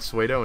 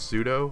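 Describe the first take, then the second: First: The first syllable does not sound like 'sood'. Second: The first syllable sounds like 'sood'. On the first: The speaker calls it wrong. "I kept saying Suedo" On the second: The speaker calls it right. "actually pronounced pseudo, like S O O D"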